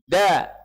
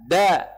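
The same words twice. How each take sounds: No difference in how they are said.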